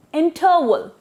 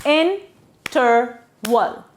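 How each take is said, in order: First: Said in the usual way. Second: Interval drawn into three slow, separate syllables. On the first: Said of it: "we break the word there". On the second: Shown as a demonstration. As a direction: say Interval slowly, pausing between syllables. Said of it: "same goes with the rest".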